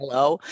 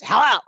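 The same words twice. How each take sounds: First: Tentative phone check into silence, lightly acted; checking the line. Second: Gruff ogre phone bark, higher and louder. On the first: Daughter-in-law after silence on the phone, checking the line. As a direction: check whether anyone is still on the line. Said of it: "it was one of those commercials". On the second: Retold or imitated. Father-in-law answering daughter-in-law's call, as a loud ogre. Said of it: "he sounds like this ogre to me".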